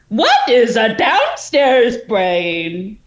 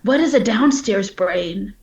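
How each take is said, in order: First: It is asked in a changed, sarcastic tone. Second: It is asked in a plain, sincere-sounding tone. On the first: The speaker is only joking. The speaker calls it right. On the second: It seems to be a genuine question. The speaker calls it wrong.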